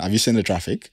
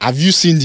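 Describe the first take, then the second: First: It is spoken in a plain American accent. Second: It is spoken in an energetic Nigerian accent. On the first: "normal American" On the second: "But Nigerian"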